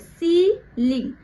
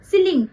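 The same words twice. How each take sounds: First: The word is said softly and gently. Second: The word is said hard and forcefully. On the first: The speaker calls it right. "ये धीरे से बोला जा रहा है" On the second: The speaker calls it wrong. "ऐसे नहीं बोल रहे ना"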